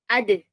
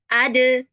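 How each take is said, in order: First: The final consonant is released weakly, as if dropped. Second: The final consonant is released with strong push. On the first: The speaker calls it wrong. "Bukan hanya ade, ade. ... Nggak kayak dibuang gitu" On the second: The speaker calls it right. "didorong ya, lebih didorong"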